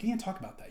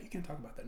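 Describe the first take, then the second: First: Mock scolding, the word You leaned on; sarcastic imitation of offended people. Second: The same You can't talk about that dropped much softer, almost under the breath; soft sarcastic echo of the scold; muttered echo. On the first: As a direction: scold them in a sneering tone. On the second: Retold or imitated. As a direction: repeat it quietly to yourself as a mocking echo. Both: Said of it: "they go".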